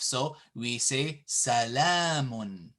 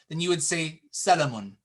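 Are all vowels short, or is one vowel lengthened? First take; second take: one lengthened; all short. First: One vowel is clearly lengthened. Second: All the vowels are said short. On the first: The speaker calls it right. "There's an alif" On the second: The speaker calls it wrong. "if this little alif wasn't here"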